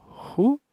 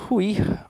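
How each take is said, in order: First: "Ruir" broken into "ru" and "ir" with a long pause between; two separate beats for "Ruir", ru... ir; syllable by syllable. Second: Said in the usual way. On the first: Shown as a demonstration. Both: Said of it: "Como é que eu separo a sílaba".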